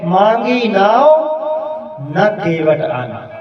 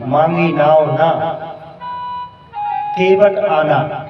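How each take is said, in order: First: The pause comes right before 'na'. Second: The pause comes right after 'na'.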